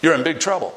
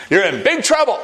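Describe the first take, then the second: First: Said in the usual way. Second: "You're in big trouble" repeated higher and louder, falling hard on "trouble"; louder, higher warning stressing "trouble"; emphatic warning. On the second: Real, not acted. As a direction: drive "trouble" home with a raised, louder voice.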